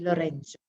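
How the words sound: It is said with a South American Spanish accent. "more South American Spanish, they have a slightly different accent"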